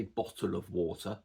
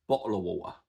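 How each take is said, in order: First: BOTTLE OF WATER with both T's sounded clearly; T's pronounced. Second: BOTTLE OF WATER with glottal stops replacing both T's. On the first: Teacher showing how he doesn't talk, "bottle of water" with crisp T's. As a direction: articulate each T in "bottle of water". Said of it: "I don't pronounce the T's in bottle". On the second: Teacher showing his own Cockney way, "bottle of water" with no T's. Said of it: "So I don't say bottle of water". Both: Shown as a demonstration.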